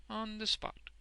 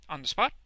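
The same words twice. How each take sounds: First: High, composed answer; assured confirmation. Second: Loud, startled burst; astonished question. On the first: Wegg confirms his boast, assured. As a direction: confirm it without any push in volume. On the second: Boffin questions Wegg's boast, astonished. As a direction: ask it sharply, amazed. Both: A narrator's reading.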